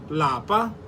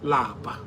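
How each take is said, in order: First: The word is said with a high tone. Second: The word is said with a low tone. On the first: It means home. "In higher tone, lapa means home" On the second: It means to be tired. "Lower tone, which lapa. Lapa means to be tired"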